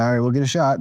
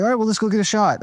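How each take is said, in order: First: Said in the usual way. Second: Quoting the producer, pitched much higher; eager, high-pitched producer pitch; Jimmy's voice. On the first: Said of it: "I'm like". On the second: Retold or imitated. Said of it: "And then he's like".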